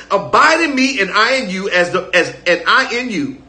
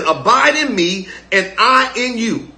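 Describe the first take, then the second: First: Said in the usual way. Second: Slow scripture reading. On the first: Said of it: "Watch this". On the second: Shown as a demonstration. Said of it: "He says".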